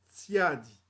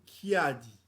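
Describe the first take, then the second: First: The word begins with a t sound. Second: The word begins with a k sound. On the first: This is the Kituba form. "En langue kituba, tiadi" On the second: This is the form some Congolese use. "Chez certains Congos, on dit kiadi"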